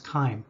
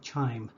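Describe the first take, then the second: First: The word begins with a hard K sound. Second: The word begins with a CH sound. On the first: The speaker calls it right. "it's pronounced as a hard K. So the proper pronunciation is chyme" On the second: The speaker calls it wrong. "I might have actually said chime. If I did, ignore me"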